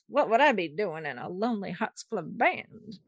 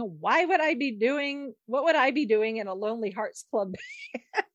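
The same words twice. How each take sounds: First: It is said in an imitated sultry film-star voice. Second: It is said in the speaker's ordinary voice. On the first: The speaker calls it right. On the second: The speaker calls it wrong.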